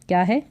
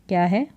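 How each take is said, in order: Both takes have the same delivery.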